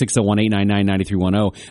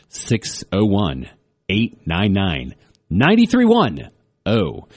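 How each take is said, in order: First: The number is said at normal speed. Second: The number is said more slowly.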